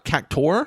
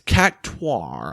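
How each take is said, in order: First: It is said without a u sound. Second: It is said with a u sound. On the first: The speaker calls it wrong. "listeners like have thought of it as cac like Cactor" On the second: The speaker calls it right. "It's Cactuar, I think"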